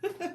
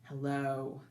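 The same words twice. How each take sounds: First: It is said in a silly way. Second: It is said in a serious way.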